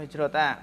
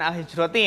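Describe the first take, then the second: First: The word ends with an a vowel. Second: The word ends with an i vowel. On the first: "Atau hijrota" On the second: "Jangan al-hijroti ya"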